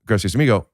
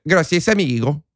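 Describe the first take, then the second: First: Said in the usual way. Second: Higher-pitched, hammed-up Mexican accent; badly faked Mexican Spanish accent; exaggerated Mexican accent. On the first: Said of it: "Or you could say". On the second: Shown as a demonstration. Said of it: "I don't know how to do voices".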